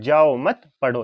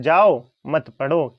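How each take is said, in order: First: जाओ मत grouped, slow and loud, पढ़ो set apart; pause after मत. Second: Long, loud जाओ, then मत पढ़ो together; pause after जाओ. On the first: Teacher repeating what father tells child, pause after मत. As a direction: hold a comma break after मत. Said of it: "पिताजी क्या कह रहे हैं". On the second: Teacher giving the child's misunderstanding, pause after जाओ. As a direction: break the phrase right after जाओ. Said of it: "बच्चा समझ रहा है". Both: Shown as a demonstration.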